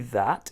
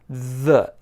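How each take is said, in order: First: The word ends in a clearly released t. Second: The word is reduced and ends in a glottal stop. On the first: The speaker calls it wrong. "But it's not going to be that" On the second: The speaker calls it right. "It's more like the. ... the glottal stop"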